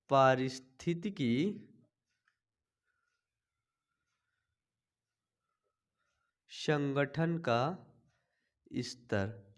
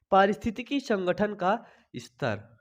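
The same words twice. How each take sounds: First: Each word drawn out very slowly and softly; slow dictation. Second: Said in the usual way. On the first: Shown as a demonstration. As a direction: spell it out slowly so students can write it down. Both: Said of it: "dictation repeated".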